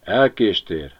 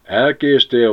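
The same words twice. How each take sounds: First: Said in the usual way. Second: Higher, louder: Elkéstél, stressed hard; pointed announcement. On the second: A narrator's reading. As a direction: land Elkéstél as big news. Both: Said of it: "nézett fel a varjú nagy tisztelettel".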